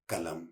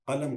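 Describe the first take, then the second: First: The first sound is a plain k. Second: The first sound is a deep throaty q. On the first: The speaker calls it wrong. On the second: The speaker calls it right.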